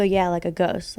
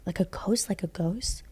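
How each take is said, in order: First: Said in the usual way. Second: Imitating a softly whispered, incredulous question; hushed question. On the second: Cousin asks about the woman upstairs, hushed question. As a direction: drop to a near-whisper on a rising question.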